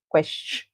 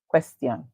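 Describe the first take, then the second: First: It has a ch sound in the middle. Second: It has a clear t sound in the middle. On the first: "the T I is treated as C eight sound, ch" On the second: "So in the British accent, we say"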